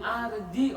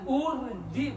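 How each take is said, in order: First: The word begins with an a vowel. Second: The word begins with a u vowel. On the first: "Jangan arji" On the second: "jangan urji"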